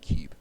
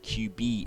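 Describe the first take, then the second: First: It is said as one single syllable. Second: It is split into two separate syllables. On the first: "instead of just cube" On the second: "he pronounces cube as Q B"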